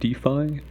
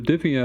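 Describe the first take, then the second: First: The name ends with an 'eye' sound. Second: The name ends with an 'ee' sound. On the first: The speaker calls it right. "or DeFi, I believe it's pronounced" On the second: The speaker calls it wrong. "It looks like Diffie, and I think that sounds cute"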